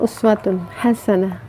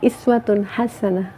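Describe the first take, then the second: First: The first word begins with an 'oo' vowel. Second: The first word begins with an 'ee' vowel. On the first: The example to follow lies in great, grand deeds. "dibacanya kan uswatun hasanah ya" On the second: The example to follow lies in small everyday details. "itu dibacanya bukan uswatun hasanah, iswatun hasanah ya"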